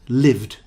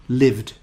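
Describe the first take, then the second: The two takes are said the same way.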